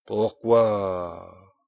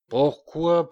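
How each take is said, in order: First: Furious. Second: Loud, higher furious question. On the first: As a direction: growl the question in fury. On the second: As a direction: fling it out higher in rage. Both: A narrator's reading. King turning on the dwarf in fury. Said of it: "avec fureur".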